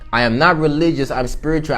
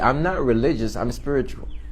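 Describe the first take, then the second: First: It is said more loudly. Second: It is said at a normal volume.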